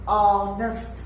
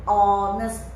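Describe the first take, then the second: No difference in how they are said.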